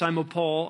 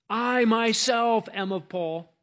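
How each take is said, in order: First: Said in the usual way. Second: Preacher showing the emphatic I in Greek, stressing "I". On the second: Shown as a demonstration. Preacher to congregation, slowly stressing "I" as emphatic. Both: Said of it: "is emphatic".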